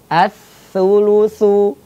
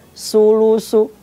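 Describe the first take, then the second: First: The first consonant is a soft th sound. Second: The first consonant is a plain s sound. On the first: The speaker calls it right. "as-sulusu, ya" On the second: The speaker calls it wrong. "bukan dibaca sulusu, nggak boleh"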